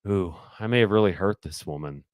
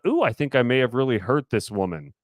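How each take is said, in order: First: It sounds contemplative and slightly regretful. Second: It sounds fun and spicy.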